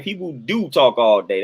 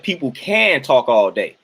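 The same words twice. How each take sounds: First: "do" hit hard, slow and deliberate; stress on do. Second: "can" leaned on, slow and drawn out; stress on can. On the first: Answering a viewer, insisting with stress on do. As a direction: slowly land on "do". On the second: Correcting a viewer's comment, stressing can. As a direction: slowly weigh the word "can". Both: Shown as a demonstration. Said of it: "It ain't that they can".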